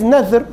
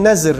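First: The middle consonant is a th-like sound. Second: The middle consonant is a z sound. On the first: The speaker calls it right. "But in Arabic is nadhr" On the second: The speaker calls it wrong. "They use the Z instead of TH or DH"

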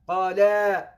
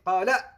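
First: The final vowel is drawn out long. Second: The final vowel is short. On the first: Two people said it. "that extension includes two people here" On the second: One person said it. "instead of saying Qala"

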